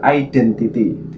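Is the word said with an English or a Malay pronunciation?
English. It is said with English-style sounds. It is mixed with English. The speaker calls it wrong. "bukan identity, tidak seperti itu"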